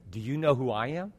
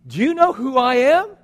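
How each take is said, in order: First: Low, soft, knowing question; quietly pointed. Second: High, loud indignant question; indignant challenge. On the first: Jesus looking right into her eyes, quietly pointed. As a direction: drop it low and soft, straight to the soul. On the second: Woman at the well to a thirsty stranger, indignant. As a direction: pitch it up, affronted. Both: Acted.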